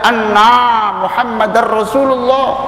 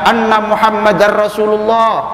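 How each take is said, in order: First: The vowel in anna is drawn out long. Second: The vowel in anna is kept short. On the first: We ourselves are Muhammad the messenger of Allah. The speaker calls it wrong. "kalau dibaca panjang" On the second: Muhammad is the messenger of Allah. The speaker calls it right.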